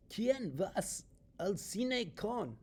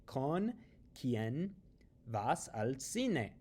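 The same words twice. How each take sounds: First: "¿Quién vas al cine con?" said high and slow in a silly off voice, "con" left hanging; mock wrong Spanish. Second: Said in the usual way. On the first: Shown as a demonstration. Teacher mocking the wrong Spanish word order for students. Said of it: "it sounds really, really bizarre". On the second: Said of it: "You would only say".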